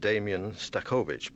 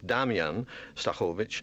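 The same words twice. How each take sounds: First: The name is said with English pronunciation. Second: The name is said with Polish pronunciation. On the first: The speaker calls it wrong. "if you were reading this with an English accent" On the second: The speaker calls it right. "but in fact it's"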